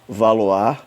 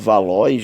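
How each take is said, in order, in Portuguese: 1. O nome Valois é dito com pronúncia francesa. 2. O nome Valois é lido como está escrito. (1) "Mas na verdade se pronuncia" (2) "está com o nome aqui de"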